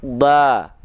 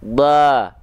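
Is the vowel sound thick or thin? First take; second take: thin; thin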